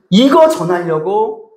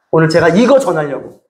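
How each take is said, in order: First: 이거 leaned on slowly, 전하려고 drawn out and rising; slow stress on 이거. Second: Said in the usual way. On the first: Shown as a demonstration. Preacher repeats to the congregation, slow emphasis on 이거.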